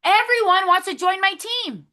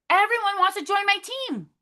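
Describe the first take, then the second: First: Higher, upbeat affirmation; excited affirmation. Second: Repeated affirmation. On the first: Team leader to her recruits, a bright excited affirmation. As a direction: say it like you already believe it. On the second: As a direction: repeat it, more convinced. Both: Shown as a demonstration. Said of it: "I want you guys to say that".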